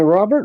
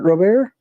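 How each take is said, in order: First: Said in the usual way. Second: Robert as "roh-BAIR", rising at the end; French-style pronunciation. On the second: Shown as a demonstration. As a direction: make "Robert?" French, dropping the final T. Playing with ways to say Robert.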